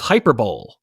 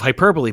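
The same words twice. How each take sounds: First: It is said as spelled, ending like 'bowl'. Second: It is said with four syllables, ending in 'lee'. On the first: Someone only ever read the word and never heard it. The speaker calls it wrong. "he used to think that it was hyperbole" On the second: This is how the word is usually said aloud. The speaker calls it right. "instead of hyperbole"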